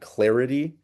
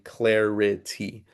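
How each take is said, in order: First: It is said at a normal, relaxed pace. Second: It is said slowly with exaggerated articulation. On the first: "instead of saying clarity"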